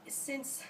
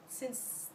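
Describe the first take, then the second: No difference in how they are said.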